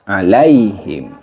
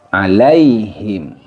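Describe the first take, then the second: Both takes have the same delivery.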